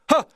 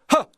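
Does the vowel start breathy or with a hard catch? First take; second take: breathy; breathy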